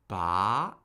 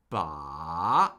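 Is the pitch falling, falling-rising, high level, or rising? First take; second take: rising; falling-rising. First: The pitch starts mid and rises to high. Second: The pitch dips down and then rises. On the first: "That's the rising tone" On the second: "The third tone falls and rises"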